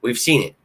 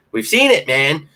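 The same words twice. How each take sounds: First: Said in the usual way. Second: Much higher and louder, almost a shout; excited exclaim. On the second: Real, not acted. Fan insists to viewers the promise is real, excited near-shout. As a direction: burst out insisting fans already saw it.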